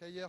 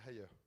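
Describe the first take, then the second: First: The name is said with a French pronunciation. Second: The name is said with its original non-French pronunciation. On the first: "je vais le prononcer à la française" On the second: "la prononciation c'est Haier"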